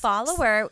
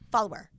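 First: The word is said with three syllables. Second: The word is squeezed into two syllables. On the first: "Follower should have three syllables" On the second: "But he says follower"

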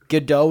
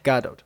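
First: The name ends without a final T sound. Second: The name ends with a clear final T sound. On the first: The speaker calls it wrong. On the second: The speaker calls it right.

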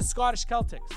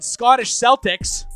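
First: Celtics is said the original, non-American way. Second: Celtics is said the North American way. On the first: This is how the team's own fans say the name. The speaker calls it right. "It's the Scottish Celtics" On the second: This is how the name is said in North America. The speaker calls it wrong. "they don't call them the fucking Scottish Celtics"

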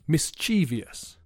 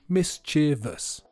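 First: The word has the common native-speaker pronunciation. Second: The word has the dictionary pronunciation. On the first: The speaker calls it wrong. "native speakers mispronounce the word mischievous and say mischievous" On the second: The speaker calls it right. "according to the Cambridge Dictionary, it should be mischievous"

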